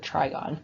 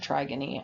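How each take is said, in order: First: It ends on the gone syllable, no extra vowel. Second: It ends with an extra final ee syllable. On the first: The speaker calls it right. "but it's the trigone" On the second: The speaker calls it wrong. "I think I pronounced it trigony"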